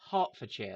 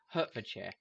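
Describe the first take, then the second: First: The first syllable sounds like "heart". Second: The first syllable sounds like "hurt". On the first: The speaker calls it right. "it's pronounced Hertfordshire, like the thing you have in your chest" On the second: The speaker calls it wrong. "every American I've seen pronounce it"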